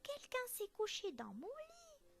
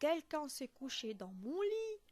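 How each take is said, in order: First: It is said in a tiny, high voice. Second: It is said in a very big, deep voice.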